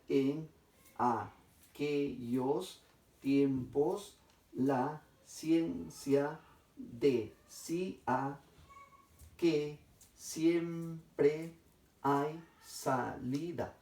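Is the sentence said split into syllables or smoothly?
split. The sentence is broken apart with pauses between syllables.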